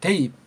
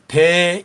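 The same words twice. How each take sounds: First: The vowels are said quickly as one sound. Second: The vowels are drawn out slowly and separately. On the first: The speaker calls it right. "대이 빨랑 하잖아요" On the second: The speaker calls it wrong. "천천히 대이 이렇게 발음하지 않고"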